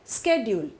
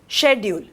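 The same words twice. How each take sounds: First: The word is said with an American pronunciation. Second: The word is said with a British pronunciation. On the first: "Americans say schedule" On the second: "The British people say schedule"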